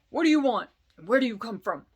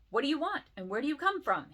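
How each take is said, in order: First: It is said in a gruff, rough voice. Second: It is said in a plain, ungruff voice.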